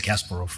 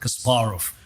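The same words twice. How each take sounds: First: The name is said with an American pronunciation. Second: The name is said with a Russian pronunciation. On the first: "Americans always say" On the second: "which is Russian pronunciation"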